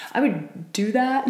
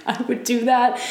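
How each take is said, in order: First: Said in the usual way. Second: Laughing. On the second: Real, not acted. Repeat with a laugh.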